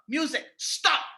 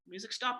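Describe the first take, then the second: First: It is said in a firm, aggressive tone. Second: It is said in a soft, relaxed tone. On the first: The speaker is serious and expects obedience. The speaker calls it right. "my tone, he knows I'm serious" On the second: The command will not be taken seriously. The speaker calls it wrong. "I'm not saying it aggressively"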